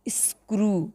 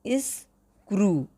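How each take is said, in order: First: Said in the usual way. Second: स्क्रू drawn out very slowly, each sound clear; slow clear pronunciation. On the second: Shown as a demonstration. Teacher shows students how to say स्क्रू, very slowly. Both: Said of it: "इसको पढ़ना कैसे है?".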